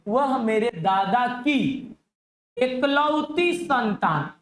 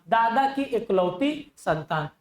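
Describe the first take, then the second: First: Very slow read of वह मेरे दादा की एकलौती संतान. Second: Said in the usual way. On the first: Shown as a demonstration. Teacher reading the puzzle slowly to his class. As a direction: read the question out word by word, very slow. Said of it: "teacher reads question slowly". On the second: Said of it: "repeated at near normal pace".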